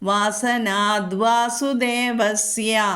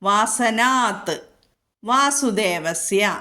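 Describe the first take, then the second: First: A soft d sound, the words joined. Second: A hard t sound, the words kept apart. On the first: The two words are joined together. "ഒന്നിച്ചു കൂടിയപ്പോൾ ത എന്നുള്ളത് മൃദുവായി" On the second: The two words are kept separate. "വാസനാത്ത് എന്ന് പറഞ്ഞാൽ വാസുദേവസ്യ എന്ന് വിടർത്തി പറയണം"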